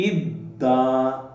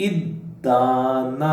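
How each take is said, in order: The two takes are said the same way.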